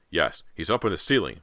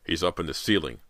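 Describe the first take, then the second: First: Slightly more excited father; breathless declaration. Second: Said in the usual way. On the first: A narrator's reading. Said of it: "Mister Fraser declared breathlessly". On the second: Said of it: "Mister Fraser declared".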